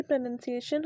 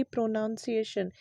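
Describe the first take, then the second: First: प्रोनंसिएशन with a short "uh", pro-nun-si-AY-shun; correct pronunciation. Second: प्रोनाउंसिएशन with an "ow", pro-NOUN-si-ay-shun; wrong pronunciation. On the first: Teacher shows students the right form: प्रोनंसिएशन with short "uh". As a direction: say प्रोनंसिएशन with no "ow" sound. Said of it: "जो इसका सही प्रोनंसिएशन होता है". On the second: Teacher shows students the wrong form: प्रोनाउंसिएशन with "ow". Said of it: "ना कि". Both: Shown as a demonstration.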